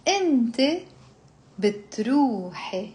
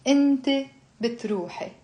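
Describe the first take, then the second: First: Pronoun, long pause, then verb; slow conjugation drill. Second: Brisk pronoun and verb; faster drill. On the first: Teacher leading the feminine form for repeating, slowly. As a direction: separate the words for learners. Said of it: "you slowly build up". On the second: Teacher drilling the feminine form without explanation, quicker. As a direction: say it in one quicker go. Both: Shown as a demonstration.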